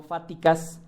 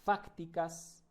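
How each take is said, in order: First: Fáticas said without the c sound, as fa-ti-cas; the mispronounced fáticas, dropping the c before the t; fáticas with no c at all, the wrong way; wrong pronunciation. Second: Fácticas with a clear c before the t and stress on the first a; fácticas said carefully, FAC-ti-cas, c sounded; fácticas, c pronounced and the first a stressed, the right way; correct pronunciation. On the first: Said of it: "no fáticas". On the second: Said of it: "con C, y acento en la A". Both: Shown as a demonstration.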